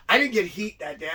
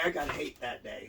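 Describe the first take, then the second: First: "heat" punched louder, set up for contrast; stress on heat. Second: "hate" as the correction, in a lower, dropped voice; stress on hate. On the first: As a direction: lean on "heat" as the word being rejected. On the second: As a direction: land quietly on "hate" as the punchline. Contrasts heat with hate. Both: Shown as a demonstration.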